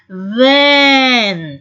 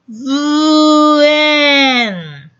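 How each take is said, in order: First: The sounds are run together quickly. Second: The word is sounded out slowly, sound by sound.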